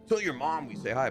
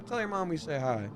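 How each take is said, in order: First: It is said in a mocking, insulting tone. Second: It is said in a warm, sincere tone.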